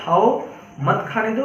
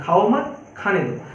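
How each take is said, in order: First: खाओ set apart, then मत खाने दो; pause after खाओ. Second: खाओ मत together, then खाने दो; pause after मत. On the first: Teacher repeating the comma example, pause after खाओ. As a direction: break right after खाओ. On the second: Teacher contrasting the second reading, pause after मत. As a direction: hold the break until after मत. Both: Shown as a demonstration. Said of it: "comma का प्रयोग करते हुए".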